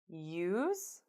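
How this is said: The pitch rises at the end.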